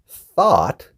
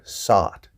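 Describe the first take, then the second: First: It begins with a th sound. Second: It begins with an s sound. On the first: The speaker calls it right. "this T H word" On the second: The speaker calls it wrong. "they're saying it with an S sound"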